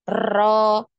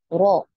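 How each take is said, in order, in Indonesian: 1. R digulung dengan banyak getaran. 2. R bergetar hanya sekali. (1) "ini terlalu berlebihan" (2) "Jadi ada getarannya sekali ya"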